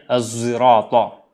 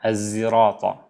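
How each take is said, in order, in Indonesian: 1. Kata ini diawali dengan bunyi z yang bersuara. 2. Kata ini diawali dengan bunyi z yang bersuara.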